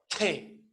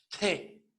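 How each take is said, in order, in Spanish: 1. La consonante se suelta con un soplo de aire. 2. La consonante se suelta con un soplo de aire.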